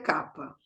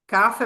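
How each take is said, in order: First: The middle consonant is a 'p' sound. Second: The middle consonant is an 'f' sound. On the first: This is the Sanskrit pronunciation. The speaker calls it right. "em sânscrito é capa" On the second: This comes from the Roman habit of reading ph as f. The speaker calls it wrong. "Kafa é porque a gente tem aquela coisa romana, né, do P H com F"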